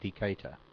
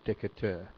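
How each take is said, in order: First: The name is said with an American pronunciation. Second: The name is said with a French pronunciation. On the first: The speaker calls it right. "I guess it's pronounced the American way" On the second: The speaker calls it wrong. "not Decatur"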